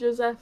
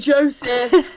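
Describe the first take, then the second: First: The name is said with a French pronunciation. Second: The name is said with an English pronunciation. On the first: "I'm Frenchifying it" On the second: "true American"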